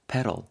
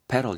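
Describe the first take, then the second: First: It is pronounced with English sounds. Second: It is pronounced with English sounds.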